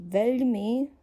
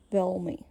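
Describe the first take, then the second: First: Veľmi with a soft Slovak ľ. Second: Veľmi with a dull, round L; hard L. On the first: Teacher contrasting letter sounds, veľmi with soft L. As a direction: say veľmi with a light, softened L. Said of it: "the sound of the letter changes". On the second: Teacher contrasting letter sounds, veľmi with hard L. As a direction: say veľmi with a dark American-style L. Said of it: "with a dull, round L sound". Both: Shown as a demonstration.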